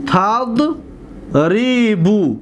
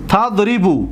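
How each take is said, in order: First: TAD, long pause, then drawn-out RI-BU in تضربو; very slowly split تضربو into its syllables. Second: Said in the usual way. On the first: Shown as a demonstration. Teacher breaks word into syllables. (تضربو را بسیار آهسته و هجا به هجا)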